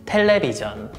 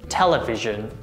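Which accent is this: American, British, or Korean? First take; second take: Korean; British. First: It is said with Korean pronunciation. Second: It is said with British pronunciation. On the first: "Korean pronunciation" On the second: "British pronunciation"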